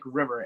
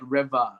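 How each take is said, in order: First: The word is said with an American accent. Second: The word is said with a British accent. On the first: This is how the word should sound. The speaker calls it right. "did not sound like river" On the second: This is how the singer said it. The speaker calls it wrong. "It sounded like river. ... I'm guessing it's your accent"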